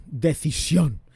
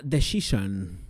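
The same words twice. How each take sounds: First: DECISIÓN said the Spanish way, stressed final syllable; Spanish pronunciation. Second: DECISION said the English way, soft "sh" sound; English pronunciation. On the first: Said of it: "vamos a decirlo así". ("Decisión" a la española, acento final) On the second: Says name in English, then Spanish. ("Decision" con pronunciación inglesa) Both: Shown as a demonstration.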